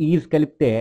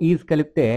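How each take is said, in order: Both takes have the same delivery.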